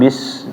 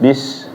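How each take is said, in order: Both takes have the same delivery.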